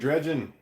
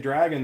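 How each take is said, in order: First: The first vowel sounds like 'dredge'. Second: The first vowel sounds like 'drag'. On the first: "they say dredgin'" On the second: "my daughters don't say dragon"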